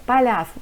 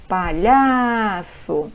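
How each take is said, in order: First: Said in the usual way. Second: PALHAÇO with LHA hugely stretched and swelling; called-out stressed syllable. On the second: Shown as a demonstration. Teacher calls the word to show the tonic syllable, PALHAÇO with LHA stretched out. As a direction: call out PALHAÇO slowly, holding the LHA long and strong. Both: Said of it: "chama pra mãe".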